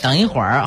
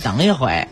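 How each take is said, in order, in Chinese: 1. 最后一个音节带儿化音。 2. 最后一个音节不儿化，没有儿音。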